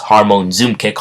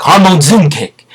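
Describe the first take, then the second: First: Said in the usual way. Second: Much higher, loud attack shout; hammed-up fighting yell; battle cry. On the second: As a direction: call out the special move as you strike. Acts the hero's attack cry.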